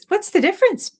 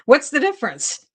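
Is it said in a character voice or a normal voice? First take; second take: character voice; normal voice. First: It is said in a put-on character voice. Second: It is said in her normal reading voice.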